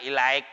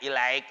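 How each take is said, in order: Both takes have the same delivery.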